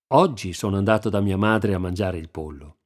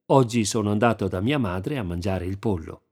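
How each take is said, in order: First: The stress is on "oggi". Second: The stress is on "pollo".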